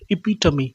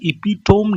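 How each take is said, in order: First: The word ends in a 'tuh-mee' sound. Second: The word ends in a 'tome' sound. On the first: The speaker calls it right. "ये एपिटमी है" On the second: The speaker calls it wrong. "ये इपिटोम नहीं है"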